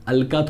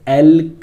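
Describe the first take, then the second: First: The word ends in a vowel sound. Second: The word ends in a consonant sound. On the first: The speaker calls it wrong. "अलका थोड़ी बोल रहा हूं" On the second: The speaker calls it right. "एल्क बोल"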